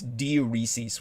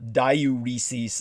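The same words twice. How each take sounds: First: The word does not begin like 'diarrhea'. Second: The word begins sounding like 'diarrhea'. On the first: The speaker calls it right. "It's diuresis" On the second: The speaker calls it wrong. "it's not diuresis uh, because people confuse that with diarrhea"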